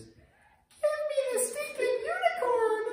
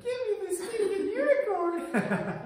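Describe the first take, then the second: First: Slow, very high, loud fed-up scream; a mom at her boiling point; furious yell. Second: High, slow mock scream through laughter; retelling the mom's outburst; laughing mock yell. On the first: Retold or imitated. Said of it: "and then you just hear this". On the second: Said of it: "And I was like".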